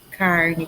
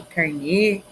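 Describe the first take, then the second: First: "carne" stressed on CAR, light ending; stress on first syllable. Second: "carnê" stressed on a closed NÊ; stress on last syllable. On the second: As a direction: say "carnê" as car-NÊ, landing on the end. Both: Shown as a demonstration. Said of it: "tabelinha com algumas curiosidades".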